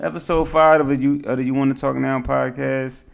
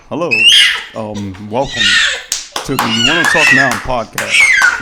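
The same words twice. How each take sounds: First: Full, projected podcast host intro; put-on radio host delivery. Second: Mock dry podcast welcome; deadpan demo of a dull host intro; dry delivery. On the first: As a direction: announce it in your podcast voice. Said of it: "that's my radio voice, dog". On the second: Shown as a demonstration. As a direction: say the welcome drily, to make a point. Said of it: "you want me dry like that".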